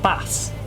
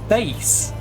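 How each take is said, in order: First: The vowel rhymes with the word mass. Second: The vowel rhymes with the word base. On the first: It means the fish. The speaker calls it wrong. "Not bass" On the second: It means the low musical sound. The speaker calls it right. "It's the bass. All about that bass. No treble"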